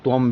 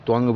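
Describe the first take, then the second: First: The word ends with a closed-lips m sound. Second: The word ends with a back nasal ng sound. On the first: "कुछ आदमी इसको त्वम भी पढ़ते हैं" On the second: "कुछ आदमी त्वंग भी पढ़ते हैं"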